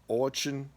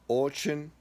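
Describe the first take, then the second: No difference in how they are said.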